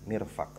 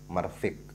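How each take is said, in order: First: First vowel is i, second vowel is a. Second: First vowel is a, second vowel is i. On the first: The speaker calls it right. "dengan dibaca kasroh mimnya, dan dibaca fathah fa'nya" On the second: The speaker calls it wrong. "dan sebaliknya"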